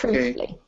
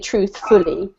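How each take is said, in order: First: The stress falls on the first syllable. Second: The stress falls on a later syllable. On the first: The speaker calls it right. "The beginning of the word is emphasized" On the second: The speaker calls it wrong. "We don't say truthfully"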